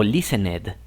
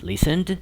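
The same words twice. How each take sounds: First: LISTENED with an added syllable, "lis-en-ED"; wrong pronunciation demo. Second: LISTENED in two syllables, ending "-nd"; correct pronunciation demo. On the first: Teacher warning learners of the error, listened as "listen-ed". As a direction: say "listened" sounding a full final "ed". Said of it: "fíjense que no es". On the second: Teacher giving the right form, listened as "lis-end". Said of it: "es listened". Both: Shown as a demonstration.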